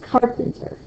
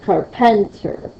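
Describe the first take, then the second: First: The stress falls on the first syllable. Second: The stress falls on a later syllable. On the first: The speaker calls it right. "I hear that car is hitting harder" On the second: The speaker calls it wrong. "It's not carpenter"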